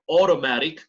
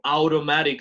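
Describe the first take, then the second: First: The first vowel is a single 'o'-like sound. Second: The first vowel is a Spanish-like 'a-u' glide. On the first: The speaker calls it right. "sino automatic, como O" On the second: The speaker calls it wrong. "no digo automatic"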